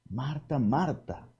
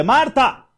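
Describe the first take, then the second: First: "Marta, Marta" said very softly and lovingly; a soft, caressing "Marta, Marta"; tender call. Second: "Marta" shouted much higher and louder; a loud, high, scolding "Marta"; harsh call. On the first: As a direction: call her name with tenderness. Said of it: "así con aquel amor, con aquella ternura". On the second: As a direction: snap her name sharply. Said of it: "No le dice". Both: Shown as a demonstration.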